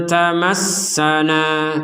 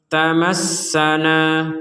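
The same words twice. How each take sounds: No difference in how they are said.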